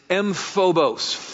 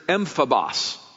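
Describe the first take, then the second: First: The word is said with an English-style pronunciation. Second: The word is said with a Greek-style pronunciation. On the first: "as I would want to pronounce it as an English guy" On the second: "Greek word here is emphabos"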